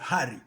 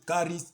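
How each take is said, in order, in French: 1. Le mot commence par un h soufflé. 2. Le mot commence par un k dur. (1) "en grec, le vrai grec, on parle de Harry" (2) "c'est une petite erreur, les gens prononcent parfois caris"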